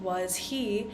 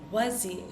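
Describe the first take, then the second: First: The h sound of 'he' is clearly pronounced. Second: The h sound is dropped, joining the words. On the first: "instead of saying was he" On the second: "we tend to omit the H sound"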